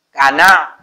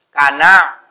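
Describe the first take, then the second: The two takes are said the same way.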